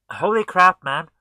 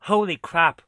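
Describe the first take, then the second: First: Much louder stunned cry; louder shock. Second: Loud, stunned exclamation; shocked. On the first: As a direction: yell it in disbelief. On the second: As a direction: blurt it out in shock. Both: Real, not acted. Repeated exclamation at game.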